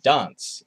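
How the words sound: The word is said with an English-like vowel. This is how South Australians say it. "people will say dance"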